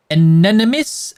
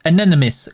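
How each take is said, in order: First: Anonymous with a rising tune; tentative rising Anonymous; questioning Anonymous. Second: Anonymous with a falling tune; Anonymous said with a final fall; settled Anonymous. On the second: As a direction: state Anonymous firmly. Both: Shown as a demonstration.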